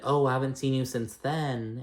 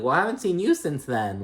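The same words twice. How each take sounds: First: Said in the usual way. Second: Higher retort, YOU punched; retort stressing YOU. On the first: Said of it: "Diana was like". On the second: Retold or imitated. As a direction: throw it back, with "you" pitched up high. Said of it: "Garcelle's like".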